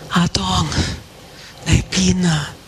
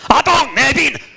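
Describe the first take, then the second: First: The voice sounds sorrowful and tender. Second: The voice sounds harsh and scolding. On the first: The caller misses the one being called. The speaker calls it right. "是一个很悲哀，一个很伤心，一个很有情的一个呼唤" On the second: The caller is scolding someone for doing wrong. The speaker calls it wrong. "有些人觉得神的语气是"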